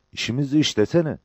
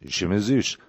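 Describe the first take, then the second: First: Higher-pitched, eager questioner; lifted voice, urging an answer; Cabbar. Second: Even, level reply; understated confirmation; Mehmet. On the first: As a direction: pitch it up, prompting your comrade. Cabbar excited, questioning Mehmet. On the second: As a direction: answer calmly in your own pitch. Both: A narrator's reading.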